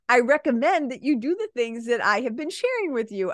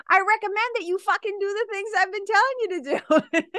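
First: Calm, even, professional tone; polite version. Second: Mock blunt outburst, much higher; exasperated snap. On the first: Shown as a demonstration. Coach gives the polite way she really tells clients, calm. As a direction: say it kindly, no edge. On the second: Coach pretends to tell a client off, high and exasperated. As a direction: blurt the swear in fake frustration. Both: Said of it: "of course I don't say it like that".

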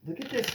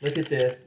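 First: Pitched way up, softer, rising; high squeal. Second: Said in the usual way. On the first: Real, not acted. Finding the letter's tiny cursive, squealing high. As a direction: squeak it out in delight. Excited at small cursive writing.

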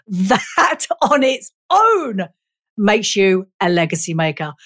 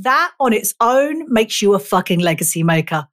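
First: "That" and "own" stretched long. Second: Said in the usual way. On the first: Real, not acted. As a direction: draw out THAT and OWN, then drop lower. Slow repeat for emphasis.

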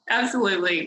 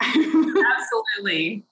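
First: Said in the usual way. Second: Drawn-out laughing yes. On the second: Real, not acted.

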